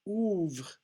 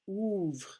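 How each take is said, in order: The two takes are said the same way.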